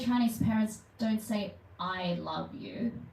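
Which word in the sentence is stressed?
love. The stress falls on the words I love you. They say something other than that phrase. "then they say something else"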